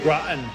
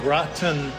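First: The T sound is swallowed, not released. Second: The T sound is clearly pronounced. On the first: "you say gratin. ... they don't do that T" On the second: "Instead of saying gratin"

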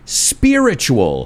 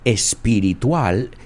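First: The word starts directly with the s sound. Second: An extra e vowel comes before the s. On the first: The speaker calls it right. "fijaos en la pronunciación, spiritual" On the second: The speaker calls it wrong. "not espiritual"

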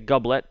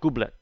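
First: The name is said with an American pronunciation. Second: The name is said with an Italian pronunciation. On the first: This is how most people say the name. "most people say Goublet" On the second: This is how the name is said in Italy. "In Italy, we call it Goublet"

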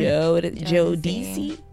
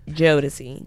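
First: The D sound is said softly. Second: The D sound is said very hard. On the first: The speaker calls it right. "Just say the name" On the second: The speaker calls it wrong. "they pronounce the D really hard sometimes"

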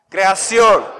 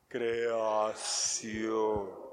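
First: It is said quickly. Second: It is said slowly, in slow motion.

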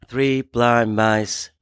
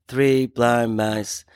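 No difference in how they are said.

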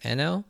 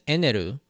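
First: The name ends with an 'l' sound. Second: The name ends with a 'ru' sound. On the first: This is the intended translated form of the name. The speaker calls it right. "it should be pronounced Enel" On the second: This is the Japanese romanized form of the name. The speaker calls it wrong. "that L sound is replaced with the ru sound"

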